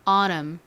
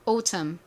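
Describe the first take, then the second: First: American accent, with the t flapped like r. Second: British accent, with a clear t sound. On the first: "미국식으로 이제 가볼까요? t를 리을처럼 샥 굴려가지고" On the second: "영국식 갈게요"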